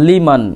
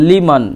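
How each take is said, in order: The two takes are said the same way.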